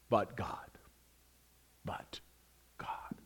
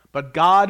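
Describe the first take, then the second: First: Hushed, breathy "but God", drawn out with pauses; a hushed secret "but God"; whispered but God. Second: "but God" ringing out loud, rising on "God"; a triumphant "but God"; proclaimed but God. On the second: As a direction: burst out with "but God" like an answer. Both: Acted. Repeating but God, whisper then loud.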